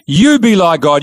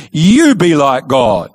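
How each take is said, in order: First: A lighter echo of the serpent's line; serpent repeating. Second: A hint of the sly serpent, stretching each word; tempting serpent. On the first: Retold or imitated. Serpent pressing Eve a second time, lightly voiced. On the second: Serpent coaxing Eve toward the fruit, slow and sly. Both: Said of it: "Now he says to Eve".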